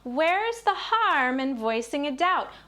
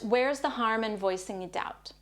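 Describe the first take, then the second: First: It is spoken at a high, childlike pitch. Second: It is spoken at a normal speaking pitch.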